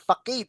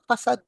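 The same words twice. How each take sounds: First: The word is sounded out as it is spelled. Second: The word is said with its standard pronunciation. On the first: The speaker calls it wrong. "When I was a lot younger, facade ang basa ko sa kanya" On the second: The speaker calls it right. "facade pala yung ano, yung ah, pronunciation nun"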